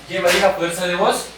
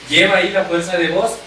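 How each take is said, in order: The two takes are said the same way.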